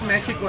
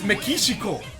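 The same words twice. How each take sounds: First: The word has a Spanish pronunciation. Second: The word has a Japanese pronunciation. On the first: "It's always Mexico in Spanish" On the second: "And in Japanese, it's Mexico"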